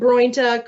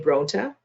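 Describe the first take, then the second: First: The first vowel is an oy sound. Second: The first vowel is a plain o. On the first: "You abandoned when two vowels go walking" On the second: "the first one does the talking. Did you say Bronta?"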